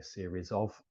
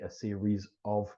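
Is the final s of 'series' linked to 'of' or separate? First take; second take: linked; separate. First: The s is linked onto the following word. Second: The s stays separate from the following word. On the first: The speaker calls it right. "we say ... the S goes with of" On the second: The speaker calls it wrong. "We don't say"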